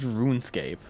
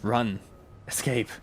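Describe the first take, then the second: First: It is said as one run-together word. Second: It is said as two separate words. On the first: It is the name of the game. "everyone always calls it RuneScape" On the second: It is an instruction to run and escape. "what if it's instructions?"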